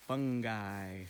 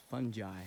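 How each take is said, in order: First: "fungi" said FUNG-guy; hard-g pronunciation. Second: "fungi" said FUN-jye; soft-g pronunciation. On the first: Host introducing the topic to kids, "fungi" with a hard g. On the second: Host giving kids the other pronunciation, "fungi" with a soft g. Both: Shown as a demonstration. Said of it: "also sometimes pronounced".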